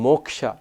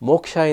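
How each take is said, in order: No difference in how they are said.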